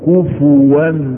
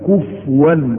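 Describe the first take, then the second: First: The f is followed by a u vowel. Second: The f has no vowel after it. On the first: The speaker calls it right. "وانما تضم" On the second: The speaker calls it wrong. "نسكنها، وهذا خطأ"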